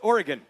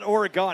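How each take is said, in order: First: Oregon is said the local way. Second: Oregon is said the nonlocal way. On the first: The speaker calls it right. "it's Oregon, right?" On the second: The speaker calls it wrong. "It's not Oregon"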